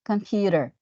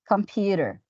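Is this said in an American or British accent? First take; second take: American; American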